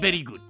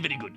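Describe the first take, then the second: First: The first word starts with a B sound. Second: The first word starts with a V sound. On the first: The speaker knows little English. The speaker calls it wrong. "they say berry" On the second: The speaker has practiced English a long time. The speaker calls it right. "They don't say very"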